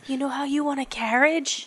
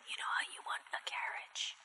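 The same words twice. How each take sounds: First: It is said a little louder. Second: It is said very quietly.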